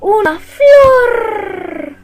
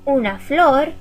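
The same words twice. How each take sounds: First: It is said excitedly with a rolled r. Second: It is said plainly with a light tapped r.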